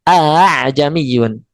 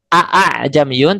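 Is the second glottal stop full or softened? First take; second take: softened; full. First: The second glottal stop is softened. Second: The second glottal stop is fully pronounced. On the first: The speaker calls it right. "Diringankan Hamzah yang keduanya" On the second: The speaker calls it wrong.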